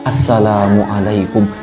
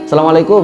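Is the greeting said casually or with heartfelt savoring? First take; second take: heartfelt; casually. First: It is said slowly and warmly, savoring it. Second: It is said quickly and routinely, without feeling. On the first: The greeting carries a sincere wish of blessing. The speaker calls it right. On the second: The greeting is a habit without meaning. The speaker calls it wrong. "so biasalah begitu ya kalimatnya"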